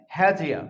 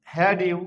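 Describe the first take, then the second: First: "হ্যাজিয়া" with d and y fused into j; linked pronunciation. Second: Said in the usual way. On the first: Shown as a demonstration. Teacher shows what it becomes, "হ্যাজিয়া" with a j link. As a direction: run it together as he-jia, "হ্যাজিয়া". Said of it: "কি উচ্চারণ হবে". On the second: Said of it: "তাহলে কি হবে".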